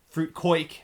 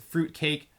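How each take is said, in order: First: The second word has an 'oi' vowel. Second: The second word has an 'ay' vowel.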